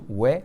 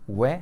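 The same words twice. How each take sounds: The two takes are said the same way.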